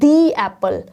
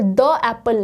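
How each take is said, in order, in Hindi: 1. 'The' को लंबे 'thee' स्वर के साथ बोलते हैं। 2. 'The' को छोटे 'thuh' स्वर के साथ बोलते हैं। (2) "द एप्पल नहीं"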